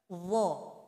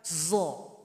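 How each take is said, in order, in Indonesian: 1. Konsonannya adalah bunyi mirip th yang tebal. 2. Konsonannya adalah bunyi z yang bergetar dan tebal. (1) "Jadi betulnya wo, taruh lidah di ujung sini seperti tadi gigit" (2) "Salah kalau dibaca zo. Kalau zo berarti huruf zai yang kita tebalkan"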